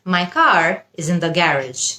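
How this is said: Garage is said with a British accent.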